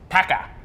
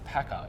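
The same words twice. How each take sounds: First: The word is said with strong, energetic emphasis. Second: The word is said plainly, without extra force. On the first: The speaker calls it right. "say it with a bit of emphasis" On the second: The speaker calls it wrong. "it's not just Packer"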